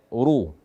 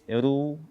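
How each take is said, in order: First: The r sound is thick and heavy. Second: The r sound is thin and light. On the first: The speaker calls it right. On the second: The speaker calls it wrong. "membaca ra dhammah dengan tipis"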